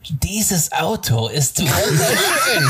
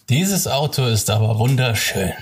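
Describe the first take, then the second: First: It is said while grinning broadly. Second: It is said with a neutral face.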